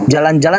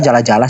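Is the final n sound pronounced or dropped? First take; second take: pronounced; dropped. First: The final n sounds are pronounced. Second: The final n sounds are dropped. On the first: This is how it should be said. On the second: This is how Nias speakers say it. "sama kami"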